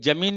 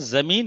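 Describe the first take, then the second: First: The word begins with a j sound. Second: The word begins with a z sound. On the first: The speaker calls it wrong. "भाई जमीन नहीं होता है" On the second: The speaker calls it right. "जमीन होता है"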